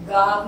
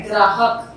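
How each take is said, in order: First: "गाहक" as gaahak, no r after g; missing r sound. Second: "ग्राहक" as graahak, r right after g; correct gr cluster. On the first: Teacher rejects the everyday form for pupils, "गाहक" without r. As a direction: go from g straight to the long a in "गाहक". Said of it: "गाहक नहीं होता". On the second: Teacher gives pupils the right form, "ग्राहक" with gr. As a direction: sound the gr at the start of "ग्राहक". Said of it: "वो होता है". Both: Shown as a demonstration.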